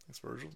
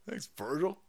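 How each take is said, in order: First: Much softer murmured repeat; soft echo. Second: Said in the usual way. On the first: Real, not acted. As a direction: echo it back very softly.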